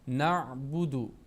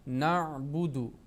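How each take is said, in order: No difference in how they are said.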